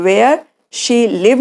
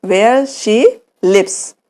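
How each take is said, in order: First: Said in the usual way. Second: Slow correct form. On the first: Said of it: "नहीं बोलेंगे". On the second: Shown as a demonstration.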